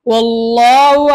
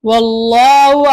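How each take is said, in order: No difference in how they are said.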